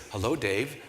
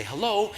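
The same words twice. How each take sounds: First: Low, soft voice on the phone; caller's voice. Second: High, light hello; phone greeting. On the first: Gala boss calls him by phone, low and soft. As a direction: imitate an unimpressed caller, low and measured. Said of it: "this voice says". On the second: Answering the ringing phone on the run, high-pitched greeting. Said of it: "I pick up the phone and I say". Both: Retold or imitated.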